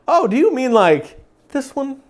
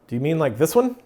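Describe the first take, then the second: First: It is said in an overly sweet, loving way. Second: It is said in a casual, rather bland way.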